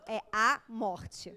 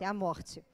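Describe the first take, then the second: First: "É a morte" drawn out slowly, each word weighted; slow emphasis. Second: Said in the usual way. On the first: Real, not acted. Explaining to audience what it is to the boyfriend, slow emphasis.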